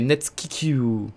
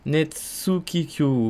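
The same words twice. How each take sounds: First: The u after ts is dropped. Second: The u after ts is clearly pronounced.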